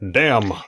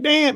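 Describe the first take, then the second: First: It is said in a measured newscaster voice. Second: It is blurted out as an emotional exclamation. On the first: The speaker calls it right. "But he says it in a reporter voice" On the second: The speaker calls it wrong. "it's not like"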